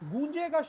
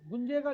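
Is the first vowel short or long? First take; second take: long; short. First: The first vowel is long. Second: The first vowel is short. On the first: The speaker calls it right. "गूंजेगा शब्द होता है, तो यहाँ मात्रा बढ़ जाएगी" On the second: The speaker calls it wrong. "गुंजेगा नहीं होगा"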